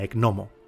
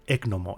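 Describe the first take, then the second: First: The stress is not on the first syllable. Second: The stress is on the first syllable.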